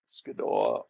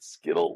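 First: The name ends with an 'aw' sound. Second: The name ends with an 'l' sound. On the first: The speaker calls it right. "Actually, it's pronounced Skidaw" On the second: The speaker calls it wrong. "they pronounce it Skittle like the candy"

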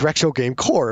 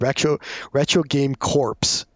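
First: The last word ends with no 'ps' sound. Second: The last word ends with a 'ps' sound. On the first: The speaker calls it right. "but it's retro game core, of course" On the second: The speaker calls it wrong. "the one blunder I did was my very first video. I said retro game corpse"

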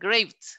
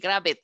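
First: The -ed ending adds no extra syllable. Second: The -ed ending is sounded as an extra syllable. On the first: The speaker calls it right. "Siempre la e es muda" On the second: The speaker calls it wrong. "ni graved"

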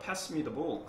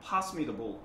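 First: The vowel in pass sounds like 'ae'. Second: The vowel in pass sounds like 'ah'. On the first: "pass라고 보통 많이 하셨죠" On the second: "A가 약간의 아 발음 형태로 갑니다"

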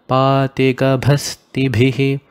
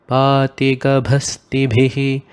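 Both takes have the same delivery.

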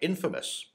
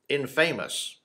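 First: The word is said the usual, standard way. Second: The word is said in a quirky movie way. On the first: "my infamous" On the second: "or infamous, as the Three Amigos said"

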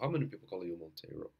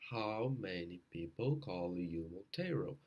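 First: The sentence is spoken fast. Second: The sentence is spoken slowly. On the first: "vai aumentando" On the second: "tenta devagar"

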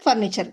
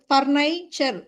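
First: The middle vowel is a short 'i'. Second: The middle vowel sounds like 'eye'. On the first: The speaker calls it right. "So அது ஃபர்னிச்சர் தான்" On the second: The speaker calls it wrong. "ஏன் ஐயின்னு சொல்லலை அப்படின்னா அது ஃபர்னைச்சர், pronunciation ரொம்ப கஷ்டமாக இருக்கும்"

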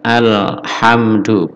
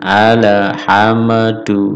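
First: The M sound has no echoing bounce. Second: The M sound ends with an echoing bounce. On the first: The speaker calls it right. "tanpa ada pantulan sama sekali" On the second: The speaker calls it wrong. "bukan alhamdu ... bukan huruf kolkolah"

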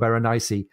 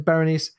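First: The name is said with four syllables. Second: The name is said with three syllables. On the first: The speaker calls it right. "she should actually have four syllables" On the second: The speaker calls it wrong. "we pronounce her name as Berenice"

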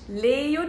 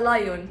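First: It is two syllables starting with lee. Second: It is two syllables starting with lie. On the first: "مش ليون" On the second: "ولا لايون"

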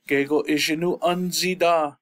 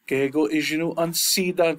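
First: The n is followed by a z sound. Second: The n is followed by an s sound. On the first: The speaker calls it right. "that N Z connection there. This flows better" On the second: The speaker calls it wrong. "we don't use sida because it just sounds funny"

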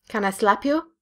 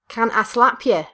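First: It is said in the speaker's usual accent. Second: It is said in a northern English accent.

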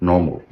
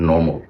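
Both takes have the same delivery.

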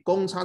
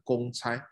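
First: The second character has its usual reading. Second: The second character has its alternate reading. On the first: The common difference of a sequence. "所以公差这两个字" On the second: An errand done for others. "也会变成公差"

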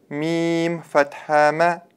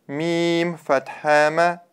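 The two takes are said the same way.

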